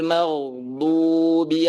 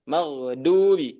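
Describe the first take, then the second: First: The middle consonant is made from the tongue's sides. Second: The middle consonant sounds like a plain d. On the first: The speaker calls it right. "seperti itu" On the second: The speaker calls it wrong. "nggak boleh kita baca dengan huruf dal, maghdubi nggak boleh ya"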